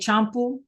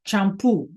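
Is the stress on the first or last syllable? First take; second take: first; last. First: The stress is on the first syllable. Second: The stress is on the last syllable. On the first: The speaker calls it wrong. "we have to have that accent so that we don't say champu" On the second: The speaker calls it right. "It's champu"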